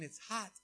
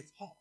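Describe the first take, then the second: First: The final T of hot is clearly pronounced. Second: The final T of hot is dropped. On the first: "instead of saying it's hot" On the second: "they just don't say their T's"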